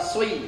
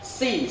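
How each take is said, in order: First: The lips round, making a sui-like sound. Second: The s is light, like a plain s. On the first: "Yang pertama sui, salah" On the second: "yang kedua si, salah"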